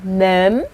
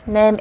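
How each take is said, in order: First: The word is said with a rising tone. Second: The word is said with a level tone. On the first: To taste food. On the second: To season food.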